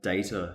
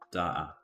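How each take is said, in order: First: It is said in an American accent. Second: It is said in a Cockney accent. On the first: "an American way of saying it" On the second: "if you're Cockney, you'd be saying"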